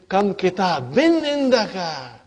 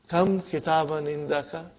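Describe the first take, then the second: First: It is exclaimed with a tone of surprise. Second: It is asked as a plain question. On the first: The speaker is surprised and expects no answer. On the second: The speaker expects an answer about the number.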